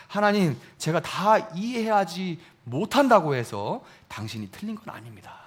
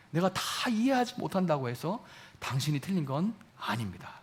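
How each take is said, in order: First: Said in the usual way. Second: Softer, with 이해하지 gently weighted; soft confession. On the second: Shown as a demonstration. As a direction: say it quietly, like a confession. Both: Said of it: "이런 얘기예요".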